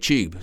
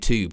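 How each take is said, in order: First: It is said the British way, like tyoob. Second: It is said the American way, like toob.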